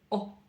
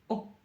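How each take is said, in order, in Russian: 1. Гласную обрывают очень коротко. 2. Гласную обрывают очень коротко.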